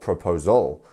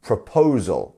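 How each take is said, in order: First: The stress is not on the second syllable. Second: The stress is on the second syllable. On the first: The speaker calls it wrong. "not proposal" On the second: The speaker calls it right. "the po part, you were right"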